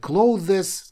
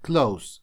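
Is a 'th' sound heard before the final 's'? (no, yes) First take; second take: yes; no. First: The word is said with a 'th' sound. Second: The word is said without a 'th' sound. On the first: The speaker calls it wrong. "многие его говорят clothes, как написано" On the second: The speaker calls it right. "по факту оно читается как слово закрывать, то есть как close"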